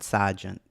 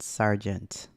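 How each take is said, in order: First: It is said in a Boston accent. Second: It is said in a careful standard accent. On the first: "Not sergeant, which I normally would say" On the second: "I said sergeant, yeah?"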